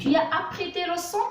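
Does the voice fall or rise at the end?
rise. The voice rises at the end, a question.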